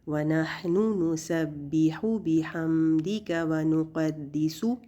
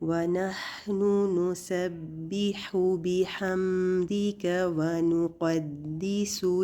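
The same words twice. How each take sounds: First: The u vowels are bounced out with a jerk. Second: The u vowels are said calmly and evenly. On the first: The speaker calls it wrong. "ऐसे नहीं पढ़ना।" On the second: The speaker calls it right. "हर पेश को आराम से आपने पढ़ना है"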